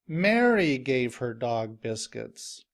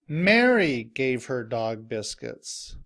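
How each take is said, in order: Both takes have the same delivery.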